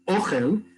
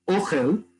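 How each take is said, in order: First: The stress is on the first syllable. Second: The stress is on the first syllable.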